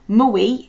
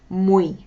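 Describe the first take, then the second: First: The u is said as a full oo vowel. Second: The u is said as a quick w glide. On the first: The speaker calls it wrong. "we want to pronounce it as muy ... like a U sound" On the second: The speaker calls it right. "Pronounce it as like an M W E E"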